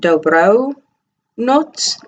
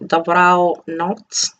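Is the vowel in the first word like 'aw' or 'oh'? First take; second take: oh; aw. First: The first word has a clear 'oh' vowel. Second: The first word has a deep 'aw' vowel. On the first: "I don't pronounce it as an O" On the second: "I pronounce it as an aw"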